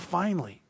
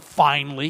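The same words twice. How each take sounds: First: It sounds glad and warmly relieved. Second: It sounds annoyed and reproachful.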